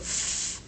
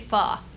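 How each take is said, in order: First: The f sound is said alone, no vowel. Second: The f sound is followed by a vowel. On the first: The speaker calls it right. "Go f" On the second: The speaker calls it wrong. "Don't say fa"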